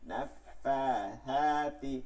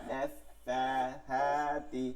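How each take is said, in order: The two takes are said the same way.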